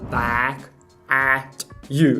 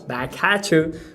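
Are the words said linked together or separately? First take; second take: separately; linked. First: Each of the three words is said separately. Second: The three words run together as one unit. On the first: The speaker calls it wrong. "ele não fala back at you" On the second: The speaker calls it right. "ele fala back at you. Não parece que é uma coisa só?"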